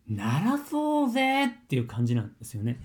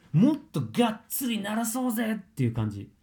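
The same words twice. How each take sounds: First: Said in the usual way. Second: もっとがっつり pushed higher with a stronger push; more emphatic. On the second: Shown as a demonstration. Coach urging a student to sing out with full chest voice, emphatic. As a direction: lean hard into もっとがっつり, pitched up.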